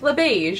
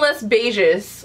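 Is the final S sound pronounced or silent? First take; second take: silent; pronounced. First: The final S sound is silent. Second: The final S sound is pronounced. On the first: The speaker calls it right. "oh, it's that simple" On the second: The speaker calls it wrong. "like a moron and like pronouncing the S"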